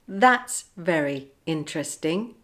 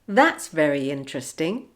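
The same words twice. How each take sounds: First: The words are said separately, without linking sounds. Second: The words run together with a linking sound. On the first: "without linking" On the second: "with the linking"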